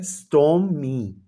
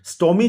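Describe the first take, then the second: First: stormy said slowly, split into its two syllables; syllables spelled out. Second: Said in the usual way. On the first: Shown as a demonstration. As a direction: stretch stormy out syllable by syllable for the class. (Stormy को धीरे धीरे दो हिस्सों में बोलें) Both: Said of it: "वो टू syllable word है".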